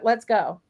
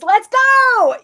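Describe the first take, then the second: First: It is said flat and unexcited. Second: It is said with excitement.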